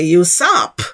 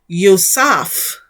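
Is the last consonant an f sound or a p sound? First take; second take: p; f. First: The word ends with a p sound. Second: The word ends with an f sound. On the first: This is the likely original pronunciation. The speaker calls it right. "we will now say Yusap" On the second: This is the later, non-original pronunciation. The speaker calls it wrong. "which we used to say"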